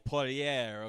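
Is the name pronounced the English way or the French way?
French. The name is said with a French pronunciation. "it's French. It's Poirier"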